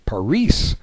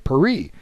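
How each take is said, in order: First: It is said with a Spanish accent. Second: It is said with a French accent. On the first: "if you ask somebody in in Spain or Mexico" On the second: "if you ask somebody in France what their capital is, they'll say Paris"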